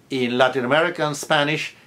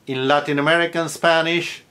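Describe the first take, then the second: No difference in how they are said.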